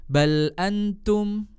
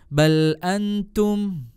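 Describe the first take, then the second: The two takes are said the same way.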